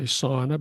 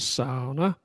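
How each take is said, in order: First: It is said with an English-style pronunciation. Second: It is said with a Finnish-style pronunciation. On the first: The speaker calls it wrong. "as we say sauna" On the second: The speaker calls it right. "they say the correct pronunciation is sauna"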